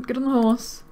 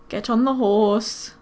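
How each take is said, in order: First: Said in the usual way. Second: "Get on the horse." said slowly, each word spaced and firm; slow, exasperated order to the Sim; slow insistent repeat. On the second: Real, not acted. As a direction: spell it out, losing patience.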